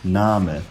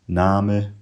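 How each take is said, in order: First: Southern Middle English: the final vowel sounds like e. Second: Northern Middle English: the final vowel sounds like i.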